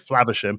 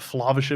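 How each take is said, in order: First: A Midland English accent with a short A. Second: A Scottish accent with a long, throaty A. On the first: "so I would say Flavisham, and it would be perfectly acceptable" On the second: "the Scottish uh, long A is more of a glottal uh, A"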